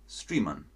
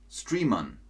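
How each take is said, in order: Both takes have the same delivery.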